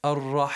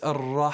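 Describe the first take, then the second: No difference in how they are said.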